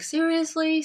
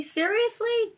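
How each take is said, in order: First: A higher, incredulous first "Seriously?"; exasperated disbelief. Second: A much higher, squeaky repeat of "Seriously?"; mock exasperation. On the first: Retold or imitated. Reacting to bullies' messages, exasperated first "Seriously?". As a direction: ask "Seriously?" in fed-up disbelief. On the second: Reacting to bullies again, sharper second "Seriously?" squeaking up. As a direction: push the second "Seriously?" way up in disbelief. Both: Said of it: "and it was just like".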